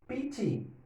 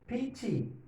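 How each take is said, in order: Both takes have the same delivery.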